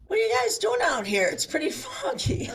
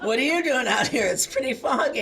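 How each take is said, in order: First: Louder, higher, laughing through it, squeaking up on foggy; laughing mock fisherman. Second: Loud laughing repeat of the line, less squeaky; laughing echo. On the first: The fisherman to the lost kayakers, laughing and louder. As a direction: chuckle out the fisherman's deadpan question. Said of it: "he goes to us". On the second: Retold or imitated. Retelling the fisherman's words to the audience, loud and laughing. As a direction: laugh while repeating his words back. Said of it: "And we went".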